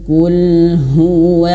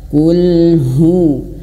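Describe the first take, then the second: Both takes have the same delivery.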